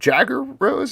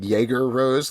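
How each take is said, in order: First: The first name does not sound like Jägermeister. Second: The first name sounds like Jägermeister. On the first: "is that how you pronounce it?" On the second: "like a Jägermeister"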